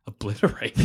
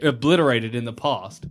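First: "Obliterated?" softer and lower, rising at the end, doubting the word; questioning tune. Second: Said in the usual way. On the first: Shown as a demonstration. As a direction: query your own word choice, trailing up.

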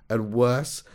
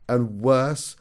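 No difference in how they are said.

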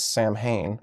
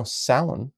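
First: Samhain said as sam-HAYN; Samhain read as spelled, "Sam-hane"; common mispronunciation. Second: Samhain said as SOW-in, no M sound; Samhain with a silent MH, ending in a soft "-in"; insiders' pronunciation. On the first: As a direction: sound out the M and H in Samhain. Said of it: "often pronounced as". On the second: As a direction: say Samhain as two syllables, like "SAL-un". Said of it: "for those in the know". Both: Shown as a demonstration.

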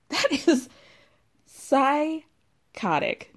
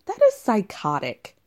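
First: "psychotic" stretched very slowly, high pitch; drawn-out emphasis. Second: Said in the usual way. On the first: Real, not acted. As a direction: break off, then drag out "psychotic". Outraged repeat, drawn out for emphasis.

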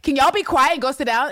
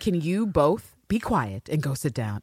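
First: Higher, louder pleading request; Constantine's weak ask. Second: Slow, firm, level command; calm mother who will be obeyed; Carolyn's stern order. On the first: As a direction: ask nicely and get ignored. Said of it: "Constantine would be like". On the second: Carolyn orders Eve and Villanelle to sit, slow and stern. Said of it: "Carolyn says". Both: Retold or imitated.

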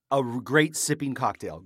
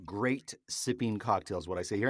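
First: His show tagline, savoured with a satisfied fall; signature catchphrase. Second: Said in the usual way. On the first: Shown as a demonstration. Host to his viewer, declaring his catchphrase. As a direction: deliver the tagline like a verdict.

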